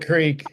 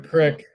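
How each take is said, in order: First: The word has a long vowel, like creek. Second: The word has a short vowel, like crick. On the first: The speaker calls it right. "It's always a creek" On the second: The speaker calls it wrong. "It's never a crick"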